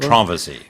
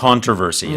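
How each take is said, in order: First: It is said in a British accent. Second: It is said in a North American accent.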